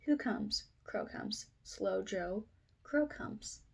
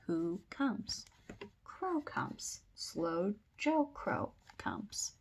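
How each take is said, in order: First: Said in the usual way. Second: Slow, separated words for a learner; slow sight-word reading. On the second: Shown as a demonstration. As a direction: point out each word slowly. Repeats sight words slowly for children.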